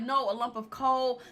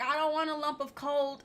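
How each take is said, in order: First: "coal" said cleanly with no final t; the husband stresses the proper "coal"; correct coal. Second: "coal" said almost like "cold", with a trace of a final t; coal misheard as cold. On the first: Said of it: "And he's like". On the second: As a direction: imitate Peggy saying "coal" as if it were "cold". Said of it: "she thought he meant cold". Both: Retold or imitated.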